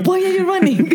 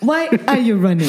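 First: Much higher comic squeal of the meme; squeaky meme voice dissolving into laughs; meme quote. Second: High, laughing meme quote; quoting the Why are you running meme, laughing. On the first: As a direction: go up high and crack into laughter. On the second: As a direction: fire the meme line back playfully. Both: Retold or imitated. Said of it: "há um Vine, "Why are you running?".

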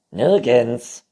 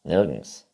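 First: Nirgends called loudly. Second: Said in the usual way. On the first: A narrator's reading. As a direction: shout Nirgends so he hears. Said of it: "rief das Neinhorn". (Nirgends laut gerufen) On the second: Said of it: "sagte das Neinhorn".

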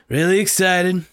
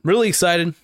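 First: Higher still, eager repeat; really excited. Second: Really excited. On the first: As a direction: push the excitement a notch further. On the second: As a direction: let the excitement lift the voice. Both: Real, not acted.

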